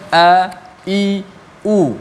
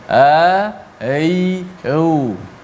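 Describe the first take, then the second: First: Each vowel starts with a clear throat catch. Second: Each vowel starts softly without a clear catch. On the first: The speaker calls it right. "disebut sepatutnya" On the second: The speaker calls it wrong. "kesalahan yang biasa berlaku disebut macam ni ... tidak jelas"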